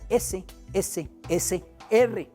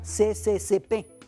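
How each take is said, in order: First: The letters are read as es, es, es, er. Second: The letters are read as ce, ce, ce, pe. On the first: The speaker calls it right. "era S S S R" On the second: The speaker calls it wrong. "el fonema no era C C C P"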